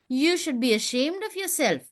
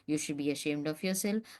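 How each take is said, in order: First: It is read with lively, varied pitch. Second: It is read in a flat, even voice. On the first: The speaker calls it right. "that modulation in your voice" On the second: The speaker calls it wrong. "If you just say"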